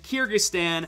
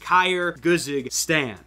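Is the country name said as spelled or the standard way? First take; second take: standard; as spelled. First: The name is said with its usual pronunciation. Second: The name is sounded out letter by letter. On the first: The speaker calls it right. "I didn't pronounce it Kyrgyzstan" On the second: The speaker calls it wrong. "I pronounced it Kyrgyzstan because that's the way it was spelled"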